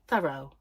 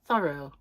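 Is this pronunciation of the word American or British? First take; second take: American; American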